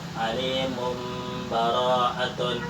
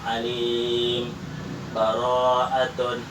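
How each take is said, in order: First: The words run together with no pause. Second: A brief pause without breath separates the words. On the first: "atau dibaca wasal atau iklab" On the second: "boleh dibaca sakta"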